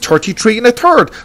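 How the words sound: It is said in an Irish English accent. "I speak Hiberno English, and that's the way I speak"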